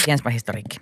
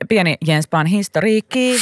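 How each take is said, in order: First: "historiikki" low and soft, falling; lower, softer throwaway repeat; low aside. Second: "historiikki" high with a rising end; higher, sing-out title; playful announcement. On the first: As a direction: drop it to a quiet echo. Same title echoed as aside. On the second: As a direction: present it like a little headline, lifted pitch. Playful mini-headline, then echoed low. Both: Real, not acted.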